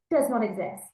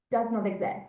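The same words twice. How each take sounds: The two takes are said the same way.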